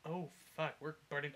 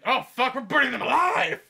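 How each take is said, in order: First: Said in the usual way. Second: High, very loud burning-alive scream; panicked scream. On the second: Acted. Soldiers in their first clash, screaming in mock panic. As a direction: scream it as an acted cry of horror. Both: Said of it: "So they're all like".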